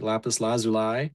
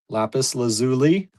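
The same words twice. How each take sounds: First: It is pronounced the British way. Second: It is pronounced the American way. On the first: "is U K, British English" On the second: "is here in the U S"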